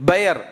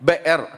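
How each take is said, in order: Both takes have the same delivery.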